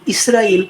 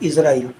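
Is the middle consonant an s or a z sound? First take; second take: s; z. First: The middle consonant is an s sound. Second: The middle consonant is a z sound. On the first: This names the country. The speaker calls it right. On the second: This names the angel of death. The speaker calls it wrong.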